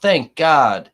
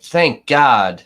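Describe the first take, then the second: First: Loud relieved shout of Thank God; mock shout. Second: Loud, relieved thank God; jury shouting out in relief, a loud mock cry. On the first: The jury shouting in relief, loud mock cry. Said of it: "Did you hear him shout out". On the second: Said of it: "And the jury was like".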